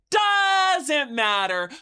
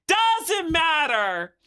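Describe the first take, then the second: First: Loud drawn-out shout; shouted, slow. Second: Emphatic. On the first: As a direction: bellow it out slowly. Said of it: "second louder take". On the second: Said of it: "repeat louder". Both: Acted.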